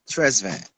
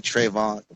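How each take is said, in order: First: An S sound comes before the V. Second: No S sound comes before the V. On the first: The speaker calls it right. "it's pronounced Tresvan" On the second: The speaker calls it wrong. "leave the um the S out and just say Trayvon"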